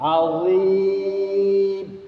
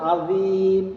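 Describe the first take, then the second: First: The middle consonant is a heavy, thick dh sound. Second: The middle consonant is a plain z sound. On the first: The speaker calls it right. "জাল তো না এটা হচ্ছে ল তাহলে হবে কি আজিম" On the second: The speaker calls it wrong. "জালজের জি বললে হবে আজিম"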